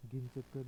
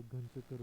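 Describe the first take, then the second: First: घिन चक्कर with i in घिन; wrong form. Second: घन चक्कर with a in घन; correct form. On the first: Teacher showing learners the mistake, घिन चक्कर with i. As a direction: say घिन चक्कर as ghin chakkar. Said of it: "नहीं होता". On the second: Teacher giving the correction, घन चक्कर with a. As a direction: say घन चक्कर as ghan chakkar. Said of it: "होता है". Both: Shown as a demonstration.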